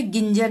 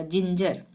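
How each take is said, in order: First: गिंजर with a hard g as in "go"; wrong hard g. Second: जिंजर starting with a j sound; correct soft g. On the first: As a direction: misread ginger as गिंजर, starting "gin" with hard g. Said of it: "यहाँ पे गिंजर नहीं बोलेंगे". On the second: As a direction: say ginger as जिंजर, first g like j. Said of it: "यहाँ पे ज ही आएगा". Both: Shown as a demonstration.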